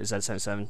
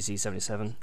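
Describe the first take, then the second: First: The letter is said the British way. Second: The letter is said the American way. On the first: This is how the speaker himself says it. "I call it Z77" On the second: This is how the listeners say it. "You say Z77"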